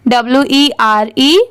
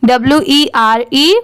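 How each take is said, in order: The two takes are said the same way.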